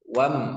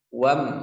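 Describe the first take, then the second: First: The vowel is short. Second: The same.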